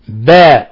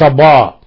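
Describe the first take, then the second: First: The ba is light and thin. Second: The ba is heavy and full. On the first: The speaker calls it right. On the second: The speaker calls it wrong. "وليس باء"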